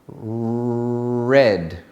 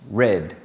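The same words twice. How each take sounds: First: The opening R is strongly exaggerated. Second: The opening R is said normally. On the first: "Exaggerate the R at the beginning" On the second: "without exaggerating the R at the beginning"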